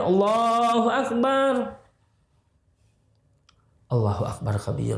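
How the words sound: A breath-long pause follows the first phrase. The speaker calls it right. "Jadi ada diam"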